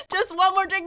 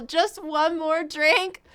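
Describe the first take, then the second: First: High, sing-song mock of a friend begging; mocking the friend's bar talk; mocking drunk friend. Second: Slow questioning mock. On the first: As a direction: tease it like a friend who wants another round. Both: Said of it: "that is terrible mentality".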